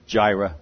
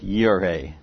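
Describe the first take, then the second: First: The word begins with a J sound. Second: The word begins with a Y sound. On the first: The speaker calls it wrong. "Some people pronounce it Jireh" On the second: The speaker calls it right. "that's where we get one of the names of God"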